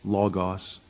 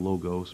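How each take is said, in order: First: Said with a Greek-style pronunciation. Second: Said with an English-style pronunciation. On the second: "we kind of anglicize it, say it in an English style"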